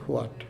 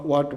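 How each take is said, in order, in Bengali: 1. শব্দটি 'hw' ধ্বনি দিয়ে শুরু। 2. শব্দটি সাধারণ 'w' ধ্বনি দিয়ে শুরু। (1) "আমরা বলে থাকি হোয়াট" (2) "এটা ব্রিটিশ বা আমেরিকানরা এটাকে অট বা ওয়াট বলে"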